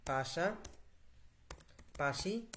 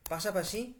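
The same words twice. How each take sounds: First: পাশাপাশি drawn out very slowly, ending on a rise; slow dictation. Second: Said in the usual way. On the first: Shown as a demonstration. Teacher dictating the word to the app, very slow. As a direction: stretch পাশাপাশি out syllable by syllable for the voice input.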